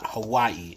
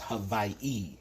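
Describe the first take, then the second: First: The name is said in a common anglicized form. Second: The name is said in its native form. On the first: The speaker calls it wrong. "the way that you say Hawaii is not Hawaii" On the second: The speaker calls it right. "it's Hawaii"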